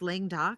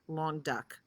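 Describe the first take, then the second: First: The name is said in her first, flawed pronunciation. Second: The name is said sounding like 'long duck'. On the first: The speaker calls it wrong. "I pronounce it wrong" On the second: The speaker calls it right. "It's pronounced Long Duck"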